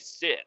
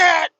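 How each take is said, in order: First: The word is said at normal volume. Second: The word is screamed loudly. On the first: The speaker calls it right. "you could just say sit" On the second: The speaker calls it wrong. "she thinks she has to scream it right in her face"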